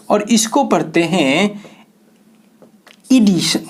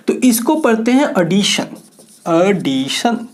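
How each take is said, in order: First: "एडिशन" starting with a long ee, as in edition; edition pronunciation. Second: "एडिशन" with a short open a, as in addition; addition pronunciation. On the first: Teacher contrasts the second word, "एडिशन" said as ee-dishan. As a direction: open "एडिशन" on ee: ee-DI-shan. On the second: Teacher models the first word for students, "एडिशन" said as a-dishan. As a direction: say "एडिशन" starting on a short a: a-DI-shan. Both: Shown as a demonstration. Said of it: "एक को एडिशन और दूसरे को एडिशन".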